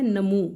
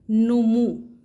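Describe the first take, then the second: First: "نمو" with a after n, na-moo; common mispronunciation. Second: "نمو" with u in both syllables, nu-moo; loud, rounded nu-moo for "نمو"; correct pronunciation. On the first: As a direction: open "نمو" on a short a: namoo. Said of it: "عام طور پر بولتے ہیں". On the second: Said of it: "نون کے اوپر بھی پیش ہے". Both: Shown as a demonstration.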